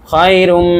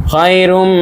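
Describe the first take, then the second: Both takes have the same delivery.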